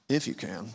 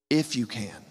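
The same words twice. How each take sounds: First: It is said as a mocking, challenging scoff. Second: It is said as a calm, reassuring answer. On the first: The ability to help is being mockingly questioned. The speaker calls it wrong. "This is not Jesus looking over and going" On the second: The focus is turned to the listener's trust. The speaker calls it right. "It's actually an answer"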